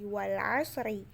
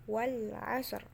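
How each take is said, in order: First: The word ends with a short i vowel. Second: The word ends on a bare r. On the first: The speaker calls it wrong. "Jadi bukan lagi" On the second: The speaker calls it right. "tapi menjadi"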